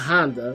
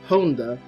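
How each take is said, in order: First: The name is said like the car brand. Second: The name is said in a Japanese way. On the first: The speaker calls it wrong. "not Honda, like the car" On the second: The speaker calls it right. "actually pronounced Honda"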